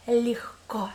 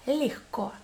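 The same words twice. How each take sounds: First: Легко with a muffled breathy h in the middle; the г in легко turns into a soft h; soft h sound. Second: Легко, g softened to h; muffled h. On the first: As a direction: say легко as lehko, whispered. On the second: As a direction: say легко as lehko. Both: Shown as a demonstration. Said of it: "we pronounce it like H".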